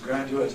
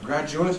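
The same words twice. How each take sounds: First: The d is followed by a separate y sound. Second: The d and y merge into a j sound. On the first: This is the older pronunciation. "Jones's graduate" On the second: This is the present-day pronunciation. "has become graduate, very commonly"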